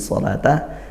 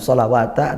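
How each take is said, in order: First: The word has no w sound, with a long vowel. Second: The word has a w sound before the ending. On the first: The speaker calls it right. "tapi sholata zakata" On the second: The speaker calls it wrong. "bukan sholawata"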